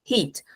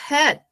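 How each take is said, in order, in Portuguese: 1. A palavra tem uma vogal 'ee' longa. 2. A palavra tem uma vogal curta e aberta. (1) "a palavrinha é heat" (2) "What's a hat? Um chapéu"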